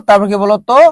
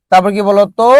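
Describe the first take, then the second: No difference in how they are said.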